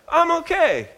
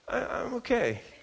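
First: It sounds fairly convincing and assured. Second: It sounds less convincing and unsure. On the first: "each okay is less convincing than the one before" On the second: "each okay is less convincing than the one before"

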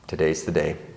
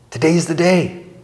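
First: It is said in a reluctant, dreading tone. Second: It is said in an eager, excited tone. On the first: The speaker is not looking forward to the day. "If you're going to the dentist's office, you're probably going to say" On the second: The speaker is looking forward to the day. "If you're going on vacation, you might say it"

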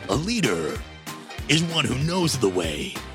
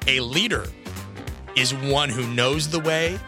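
First: It is said in a dramatic movie-trailer voice. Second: It is said in an ordinary speaking voice.

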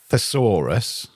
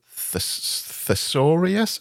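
First: It is said in the ordinary standard way. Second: It is said to sound like a dinosaur name. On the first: The speaker calls it right. "Instead of thesaurus" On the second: The speaker calls it wrong. "he'd say thesaurus. So it sounded like a dinosaur"

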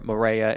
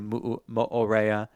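First: The vowels run together, with one dropped. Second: Each vowel is pronounced as its own sound. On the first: The speaker calls it wrong. "or Morea is actually" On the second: The speaker calls it right. "you're supposed to pronounce every single vowel"

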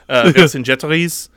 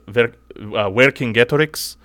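First: The name is pronounced with French sounds. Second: The name is pronounced with Latin sounds. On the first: "In French" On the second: "the Latin, he would be"

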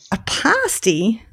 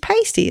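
First: The first vowel is not like 'pale'. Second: The first vowel sounds like 'pale'. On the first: The speaker calls it wrong. "Where's the IE on the end of pasty? No" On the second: The speaker calls it right. "like, you know, somebody who's pale. That's how you'd pronounce it"

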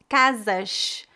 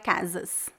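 First: It is said in the Rio de Janeiro way. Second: It is said in the traditional Brazilian way.

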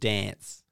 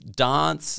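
First: The word is said with a general Australian pronunciation. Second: The word is said with an Adelaide pronunciation. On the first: "instead of dance" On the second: "The only difference is Adelaide, where it's dance"

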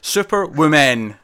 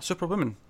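First: It is said slowly, each word deliberately forced. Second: It is said quickly and naturally, run together. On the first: "that sounds weird. I'm forcing it" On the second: "I just say it quick"

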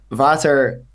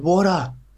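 First: It is said in a Dutch-like accent. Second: It is said in a plain Australian accent. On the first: "He had to put the accent on it" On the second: "I just said"

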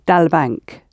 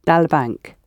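First: The two words are run together into one. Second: The same.

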